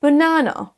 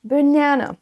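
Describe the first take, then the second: First: British BANANA, buh-NAH-nuh; prononciation britannique. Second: American BANANA with high stressed NA; prononciation américaine. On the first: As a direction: open the stressed middle A of BANANA to AH. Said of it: "Passons à l'accent U K". (BANANA à la britannique, A ouvert) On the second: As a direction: say buh-NA-nuh for BANANA, middle raised. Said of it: "l'accent U S". (BANANA à l'américaine, accent sur NA) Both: Shown as a demonstration.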